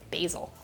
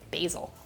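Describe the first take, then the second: First: Basil is said in an American accent. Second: Basil is said in an American accent.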